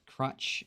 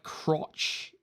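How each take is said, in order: First: The vowel sounds like the one in cut. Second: The vowel sounds like the one in cot.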